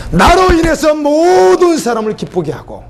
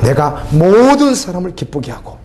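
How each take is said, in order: First: Raised high and slow, stretching each word; fervent preaching call, high and drawn out; preaching cry. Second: Said in the usual way. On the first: Acted. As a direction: lift the verse up like a cry to the congregation. Repeated scripture, raised preaching.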